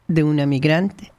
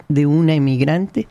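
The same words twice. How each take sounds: The two takes are said the same way.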